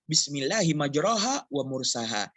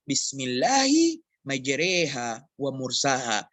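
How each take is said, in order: First: Neither key word has the 'e' vowel. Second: Only the first key word has the 'e' vowel. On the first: This is how the rule would normally have it. "Seharusnya dibaca" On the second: This is the reading used by most in Indonesia. "Hanya dibaca di satu ayat dalam uh, qiraah yang dipakai di Indonesia"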